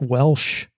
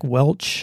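First: The name ends with an sh sound. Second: The name ends with a ch sound. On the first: The speaker calls it wrong. "I called him Jack Welch ... not like the country" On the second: The speaker calls it right. "It's Jack Welch. Like the grape juice"

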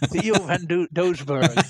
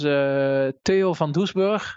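First: The name is pronounced with English sounds. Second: The name is pronounced with Dutch sounds.

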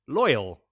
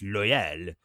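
First: The name is said plainly, without French flair. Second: The name is said with a French-sounding flair. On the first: This is the accepted pronunciation. "what is pronounced as loyal" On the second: This is the reader's private pronunciation. "A little French flair"

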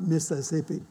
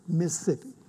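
First: The word is said with all four syllables. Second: The word is squeezed into two syllables. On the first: The speaker calls it wrong. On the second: The speaker calls it right. "it's two syllables"

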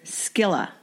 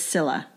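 First: The word begins with an sk sound. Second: The word begins with a plain s sound. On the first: The speaker calls it wrong. "A lot of people want to say Scylla" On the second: The speaker calls it right. "but it's Scylla. Silent C"

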